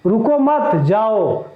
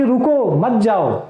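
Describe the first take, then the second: First: Slow "रुको मत" together, a break, then "जाओ"; pause after मत. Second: Slow "रुको", a break, then "मत जाओ" together; pause after रुको. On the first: Teacher showing the misplaced comma, pause after मत. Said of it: "कॉमा गलती से यहाँ लगा हुआ है". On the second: Teacher showing the intended order to stop, pause after रुको. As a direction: set रुको apart with a comma pause. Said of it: "यहाँ कॉमा लगाकर हम आपको रोकना चाहते हैं". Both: Shown as a demonstration.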